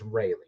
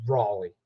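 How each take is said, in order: First: Raleigh said as RAY-lee; speaker's own pronunciation. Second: Raleigh said as RAW-lee; wife's pronunciation. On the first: Shown as a demonstration. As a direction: say Raleigh with "ray" as the first syllable. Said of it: "I'm saying it's Raleigh". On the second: Retold or imitated. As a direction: say Raleigh with "raw" as the first syllable. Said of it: "my wife is disagreeing".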